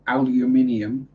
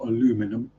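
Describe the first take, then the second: First: It is said the British English way. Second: It is said the American English way. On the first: The speaker calls it right. "aluminium, not aluminum" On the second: The speaker calls it wrong. "I hear the American pronunciations"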